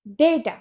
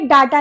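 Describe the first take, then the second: First: The first vowel sounds like 'ay'. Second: The first vowel sounds like 'ah'. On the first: The speaker calls it right. "इसे हम बोलते हैं डेटा" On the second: The speaker calls it wrong. "ये डाटा नहीं होता"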